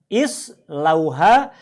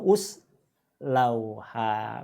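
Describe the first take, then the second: First: The word begins with an i vowel. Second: The word begins with a u vowel. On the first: The speaker calls it right. "dengan bunyi I" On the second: The speaker calls it wrong. "atau us lauha"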